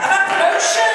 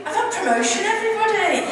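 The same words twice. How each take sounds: First: "I've had promotion" called out louder and higher to rouse the crowd; louder announcement. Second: Bright, raised announcement to the room; excited announcement. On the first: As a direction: call it out again so they cheer. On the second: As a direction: share the big news. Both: Real, not acted. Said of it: "you can do better than that".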